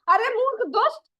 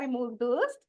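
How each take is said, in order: First: It is said harshly and angrily. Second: It is said gently and politely.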